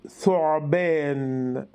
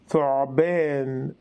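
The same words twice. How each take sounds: Both takes have the same delivery.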